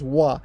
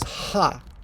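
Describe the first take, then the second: First: The syllable begins with a w sound. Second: The syllable begins with an h sound. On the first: It marks the topic of the sentence. "when it is the topic marker, it is pronounced as wa" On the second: It is part of another word. "Usually, it's pronounced as ha"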